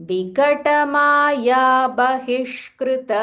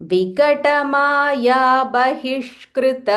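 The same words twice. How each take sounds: The two takes are said the same way.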